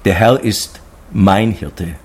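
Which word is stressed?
mein. The stress falls on the word mein. The shepherd belongs personally to me. "Und für mich das Größte"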